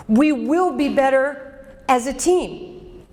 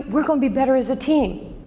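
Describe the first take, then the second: First: Slow and firm, leaning on "will"; stress on will. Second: Said in the usual way. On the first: Shown as a demonstration. Coach to her audience, promising firmly with a stressed "will". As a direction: hit "will" hard and draw the line out slowly.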